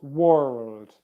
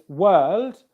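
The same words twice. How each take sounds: First: The word is said with an R sound. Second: The word is said with no R sound. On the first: The speaker calls it wrong. "and not world" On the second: The speaker calls it right. "there's no R sound in wor world. It's world"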